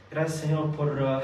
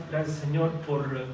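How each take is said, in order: Both takes have the same delivery.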